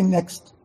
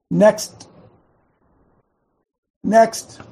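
First: Said in the usual way. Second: Each next louder and higher; building next. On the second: Shown as a demonstration. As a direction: call out next, rising. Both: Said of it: "Can you guys say that?".

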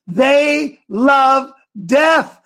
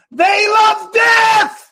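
First: "They love death" drawn out very slowly, pitch raised; slow emphatic. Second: "They love death" shouted very high and slow, "death" held; heated shout. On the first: Host warning listeners about abortion, slow and raised. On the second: Host at full fury against abortion, shouting. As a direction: roar out "They love death" with "death" stretched long. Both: Real, not acted. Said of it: "Bo, I'm hot today".

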